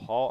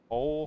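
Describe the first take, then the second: First: The vowel sounds like the one in 'hall'. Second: The vowel sounds like the one in 'hole'. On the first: The speaker calls it wrong. "I don't think it's Hall" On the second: The speaker calls it right. "I guess that's how you say it. Whole"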